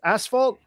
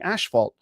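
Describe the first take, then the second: First: It is said with the non-Canadian pronunciation. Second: It is said with the Canadian pronunciation. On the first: "but isn't it pronounced asphalt?" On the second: "no, you're saying asphalt"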